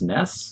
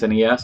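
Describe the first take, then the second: First: It is said as a single word. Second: It is spelled out letter by letter. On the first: "as opposed to" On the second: "spells it out"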